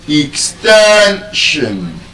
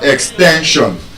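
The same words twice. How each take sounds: First: The stress is on the second-to-last syllable. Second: The stress is not on the second-to-last syllable. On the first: The speaker calls it right. "the stress is on the second to the last syllable" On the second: The speaker calls it wrong. "it's not extension"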